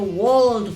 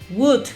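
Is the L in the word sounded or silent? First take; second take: Sounded; Silent. First: The L is clearly sounded at the end. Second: The L is silent at the end. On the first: The speaker calls it wrong. "le queremos meter como un acento como gringo ahí, como a la brava. Y terminamos diciendo would" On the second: The speaker calls it right. "esta O y esta L tienden a desaparecer y la pronunciación es más sencilla. Se dice would"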